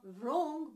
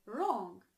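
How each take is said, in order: First: "wrong" said slowly with a v-like sound before the R. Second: "wrong" starting directly on the R; "wrong" with a clean R onset; silent W. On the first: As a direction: mispronounce "wrong" as "vrong", drawn out. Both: Shown as a demonstration. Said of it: "you never pronounce the W".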